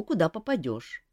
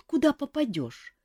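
First: Said in the usual way. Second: High small chick voice on куда попадёшь; chick quoting back. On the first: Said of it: "Kantor's own words". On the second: A narrator's reading. Chick repeats Kantor's words, high puzzled. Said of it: "А что значит".

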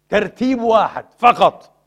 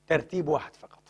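First: ترتيب واحد فقط said slowly and much louder; loud emphatic stress. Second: Said in the usual way. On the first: Shown as a demonstration. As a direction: hammer ترتيب home, slow and loud.

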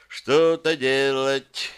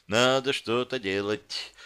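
First: Slow, stretched "Что-то делать"; drawn-out. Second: Said in the usual way. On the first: A narrator's reading. Captive urges himself to act, drawn-out. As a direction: drag out "Что-то делать" while searching for ideas. Repeats it, searching for a way.

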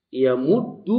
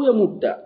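First: يمد pronounced "yamuddu", ending in u; final damma. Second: يمد pronounced "yamudda", ending in a; final fatha. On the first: Teacher showing the allowed endings, يمد ending in u. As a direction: say يمد with a doubled d and a drawn-out final u. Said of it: "إما بفتحة أو بضم". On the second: Teacher giving the alternative ending, يمد ending in a. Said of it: "إما بفتحة". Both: Shown as a demonstration.

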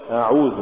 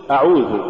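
First: أعوذ with the opening أ softened, not stopped; weak hamza. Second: Said in the usual way. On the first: Shown as a demonstration. Teacher showing what not to say, slack hamza in أعوذ. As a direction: slide into أعوذ without a firm glottal stop. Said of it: "ولا تقل". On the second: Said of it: "قل".

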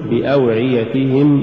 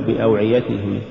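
First: بأوعيتهم with every short vowel complete; full vowels. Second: بأوعيتهم with short vowels cut short; snatched vowels. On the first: Teacher models correct recitation, بأوعيتهم evenly voweled. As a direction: give each syllable of بأوعيتهم equal room. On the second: Teacher shows crooked reading, بأوعيتهم hurried. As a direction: hurry the syllables of بأوعيتهم. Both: Shown as a demonstration. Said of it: "ولا تقل".

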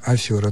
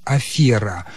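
First: Афера said as "афёра"; stressed YO. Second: Афера with a stressed E, never YO. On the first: Expert showing the non-standard form, with YO. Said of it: "Никогда не было нормативным". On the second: Expert giving the only correct form, stressed E. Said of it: "только". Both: Shown as a demonstration.

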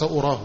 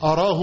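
First: "أراه" said as aurah, rounded u. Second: "أراه" said as arah, a vowel first. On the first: Teacher rejecting the u reading. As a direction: round the start of "أراه" toward urah. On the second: Teacher giving Nawawi's reading. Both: Shown as a demonstration. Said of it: "وليس".

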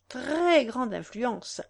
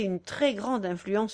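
First: "Très" drawn out and stressed; slow, weighty stress on "Très"; emphatic repeat. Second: Said in the usual way. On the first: A narrator's reading. Countess persuading the young woman, "Très" stretched for emphasis.

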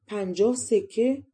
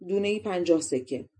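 First: Slow, rising «پنجاه سکه؟»; questioning echo. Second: Said in the usual way. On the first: A narrator's reading. Princess balks at the plum price, «پنجاه سکه؟» slow and rising. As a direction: draw out «پنجاه سکه؟» as a doubting question, ending on a rise.

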